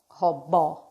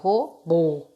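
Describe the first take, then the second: First: The final vowel is said with an open sound. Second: The final vowel is said with a closed sound. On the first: The speaker calls it wrong. "Eu não falo robô" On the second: The speaker calls it right. "Eu falo robô, tá fechado"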